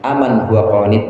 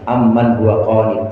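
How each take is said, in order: First: The m in the first word is short. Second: The m in the first word is held long. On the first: "dengan takhfif atau tanpa tasdid" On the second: "kebanyakan pakai tasdid"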